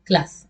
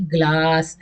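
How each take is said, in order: First: ग्लास with a brief, easy aa; no stretch on the vowel of ग्लास; short vowel. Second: ग्लास with the aa dragged out; exaggerated long aa in ग्लास; overlong vowel. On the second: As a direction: stretch ग्लास far too long. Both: Shown as a demonstration. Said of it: "ऐसे तो नहीं बोलेंगे".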